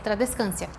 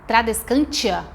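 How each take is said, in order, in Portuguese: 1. A sílaba depois do N começa com som de S. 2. A sílaba depois do N começa com som de T. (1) "Esse T em latim tem som de S, é tradescância" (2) "as pessoas falam tra, tradescantia. A gente não fala o T"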